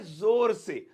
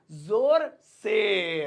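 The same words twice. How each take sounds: First: Said in the usual way. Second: "जोर से" very slow, each word held long; drawn-out repetition. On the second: Shown as a demonstration. Teacher giving students the Hindi meaning, drawn out. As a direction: stretch both words of "जोर से".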